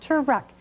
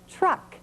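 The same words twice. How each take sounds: First: An extra vowel sounds between the t and r. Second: The t and r blend with no vowel between. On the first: The speaker calls it wrong. "not truck" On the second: The speaker calls it right.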